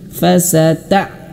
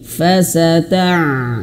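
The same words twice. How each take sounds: First: The 'ain ends in an abrupt glottal stop. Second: The 'ain flows on with a continuing sound. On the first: The speaker calls it wrong. "Jangan seperti huruf hamzah. ... tidak seperti itu ya" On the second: The speaker calls it right. "Tapi fasata' gitu"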